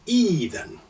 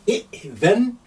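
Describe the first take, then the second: First: It begins with a long vowel, no glottal stop. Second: It begins with a glottal stop and short vowel. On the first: "convert that hamza into ya" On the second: "is glottal stop is quite hard"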